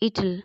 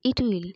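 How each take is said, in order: First: The words are joined into a shorter form. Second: Both words are said separately in full.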